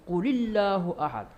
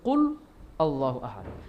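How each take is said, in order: First: The first two words are joined, sounding low. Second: The first two words are said separately.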